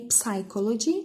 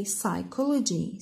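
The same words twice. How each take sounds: First: Psychology with the P sounded, p-sychology; wrong pronunciation. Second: Psychology with a silent P, sychology; correct pronunciation. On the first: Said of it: "we don't say psychology". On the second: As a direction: say psychology starting on the S. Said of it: "we say psychology". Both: Shown as a demonstration.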